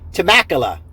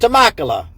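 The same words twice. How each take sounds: First: It is said in a plain American accent. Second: It is said in a put-on Italian accent.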